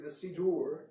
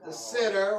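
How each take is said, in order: First: It is said with a fancier, more formal pronunciation. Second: It is said with a plain, everyday pronunciation.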